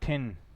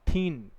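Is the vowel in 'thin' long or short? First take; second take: short; long. First: The vowel is short. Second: The vowel is long. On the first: The speaker calls it right. "थिन होता है थिन" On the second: The speaker calls it wrong. "Not थीन"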